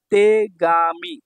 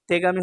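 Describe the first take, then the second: First: তেগামি very slowly, each syllable held. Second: Said in the usual way. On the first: Shown as a demonstration. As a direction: stretch তেগামি into three long beats. Teacher sounds out new word.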